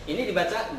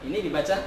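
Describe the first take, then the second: No difference in how they are said.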